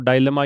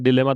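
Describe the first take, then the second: First: The first syllable has a long 'eye' vowel. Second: The first syllable has a short 'ih' vowel. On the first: "डायलेमा या डिलेमा दोनों ही pronounce कर सकते हैं" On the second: "डायलेमा या डिलेमा दोनों ही pronounce कर सकते हैं"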